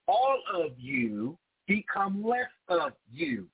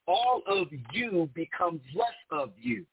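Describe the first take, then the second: First: The phrase is spoken at a slower pace. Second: The phrase is spoken at a normal pace.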